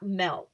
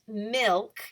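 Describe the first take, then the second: First: The vowel is a short 'eh' sound. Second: The vowel is a short 'ih' sound. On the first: The speaker calls it wrong. "not milk, M E L K" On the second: The speaker calls it right. "it's milk, M I L K"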